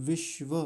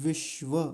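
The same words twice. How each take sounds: No difference in how they are said.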